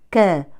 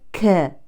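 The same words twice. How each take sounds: First: The k has a light, brief breathy release. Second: The k has an exaggerated, heavy breathy release. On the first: The speaker calls it right. "لا نبالغ في الهمس لأنها متحركة" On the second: The speaker calls it wrong. "وليست ك"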